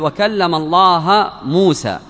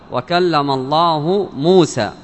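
First: Allah ends with an 'a' vowel. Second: Allah ends with a 'u' vowel. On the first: Moses is the one who spoke. The speaker calls it wrong. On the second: God is the one who spoke. The speaker calls it right.

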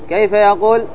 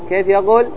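The two takes are said the same way.

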